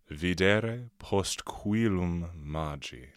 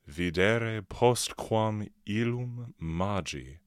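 First: Postquam and illum are run together into one. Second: Postquam and illum are said as separate words.

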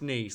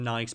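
First: It is said like the French city, 'neece'. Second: It is said like the ordinary English word 'nice'. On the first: It is named after the place. "People say it's Nice, like the name of the French" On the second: It is the everyday word people grew up saying. "everyone calls them Nice Biscuits because that's what you say when you're a kid"

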